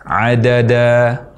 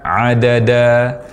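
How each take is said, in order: Both takes have the same delivery.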